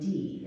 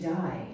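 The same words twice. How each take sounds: First: The vowel sounds like the English word 'see'. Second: The vowel sounds like the English word 'eye'. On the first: The speaker calls it right. "pronounce this differently as German die, as in twiddle-dee-dee" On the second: The speaker calls it wrong. "I keep saying English to die at first"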